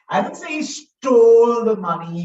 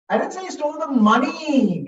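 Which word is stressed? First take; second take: stole; money. First: The word "stole" carries the main stress. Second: The word "money" carries the main stress. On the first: He may have borrowed it instead. "He could have borrowed it" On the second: He may have taken something else.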